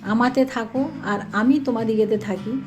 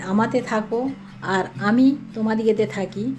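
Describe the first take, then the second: No difference in how they are said.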